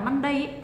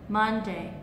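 First: Both syllables are said flat, with no stress. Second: The first syllable is stressed, the second is soft. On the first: The speaker calls it wrong. "nếu các bạn đọc là Monday thì nó không có trọng âm" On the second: The speaker calls it right. "Trọng âm trong từ này nó rơi ở âm tiết đầu tiên. Đó"

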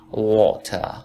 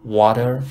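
First: The t is pronounced as a clear t. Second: The t is flapped like a soft d. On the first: "تو بریتیش میگن water" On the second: "water تو امریکن"

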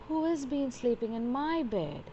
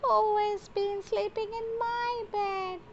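First: It is said in a medium-pitched voice. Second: It is said in a tiny, squeaky voice.

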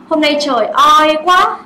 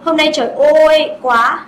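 First: The oi has the Vietnamese vowel sound. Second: The oi has the English 'oy' glide. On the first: The speaker calls it wrong. "No, we don't say it like that" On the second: The speaker calls it right. "We say"

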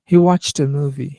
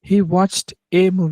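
First: Watched and a run together as one linked unit. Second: Watched and a are said as separate words. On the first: The speaker calls it right. "ওয়াচড এবং এ একসাথে connected হবে।" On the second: The speaker calls it wrong. "এরকম কিন্তু আমি বলিনি"

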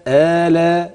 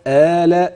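The two takes are said the same way.

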